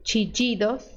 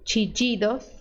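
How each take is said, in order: First: The ll is said like an English j. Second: The ll is said like an English j.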